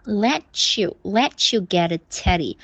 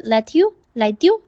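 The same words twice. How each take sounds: First: "let you" linked with a ch, as let-chew; correct linking. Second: "let you" said as let-dew, with a d sound; mimicked wrong linking. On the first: Shown as a demonstration. Teacher correcting Jerry's diu sound, correct ch linking. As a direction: join "let you" cleanly into let-chew before the rest. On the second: Teacher imitating Jerry's mistake, wrong diu sound. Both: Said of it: "就变成丢的音了".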